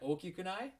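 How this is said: It ends with a questioning rise.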